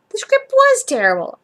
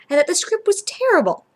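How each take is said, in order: First: "The script was terrible" said higher and louder, stress on "was"; emphatic insistence. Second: Said in the usual way. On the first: A narrator's reading. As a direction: insist hard, pushing "was". Kurt insists, voiced emphatically.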